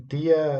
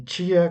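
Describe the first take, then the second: First: The t is a plain stop sound. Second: The t is an affricate, like 'ch'. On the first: This is the usual form in the Northeast. "tia é comum em maior parte do, do Nordeste" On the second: This is the usual form in the Southeast. "esse som que a gente chama de africado"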